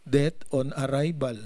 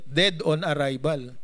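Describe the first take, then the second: First: "Death on arrival" with death said as the noun; wrong word. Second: "Dead on arrival" with dead said clearly, falling at the end; corrected word. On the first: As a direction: says "Death" and catches it as the wrong term. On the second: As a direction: fixes it to "Dead", the right term. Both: Shown as a demonstration. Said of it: "dead ba o death?".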